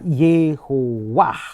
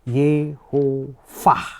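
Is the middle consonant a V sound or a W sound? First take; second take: W sound; V sound. First: The middle consonant is a w sound. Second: The middle consonant is a v sound.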